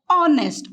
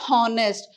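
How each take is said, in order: First: The word begins with a vowel, h silent. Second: The word begins with an audible h sound. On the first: The speaker calls it right. "we pronounce it as honest. Or it sounds O here" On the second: The speaker calls it wrong. "we don't pronounce it as honest"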